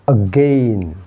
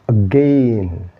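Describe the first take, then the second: Both takes have the same delivery.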